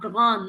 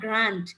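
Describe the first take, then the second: First: The word is pronounced the French way. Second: The word is pronounced the English way. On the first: The speaker calls it right. "the third word we have grand" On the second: The speaker calls it wrong. "not grand. Grand is English"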